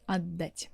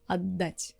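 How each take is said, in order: The two takes are said the same way.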